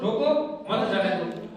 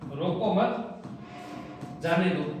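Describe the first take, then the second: First: The pause comes after 'roko'. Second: The pause comes after 'mat'.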